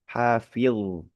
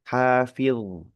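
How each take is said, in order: No difference in how they are said.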